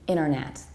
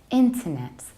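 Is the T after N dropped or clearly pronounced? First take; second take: dropped; pronounced. First: The T after the N is dropped. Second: The T after the N is clearly pronounced. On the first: "American accent, we tend to skip T and we leave exclusively N" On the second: "in British accents, we pronounce N and T in a very clear and selective way"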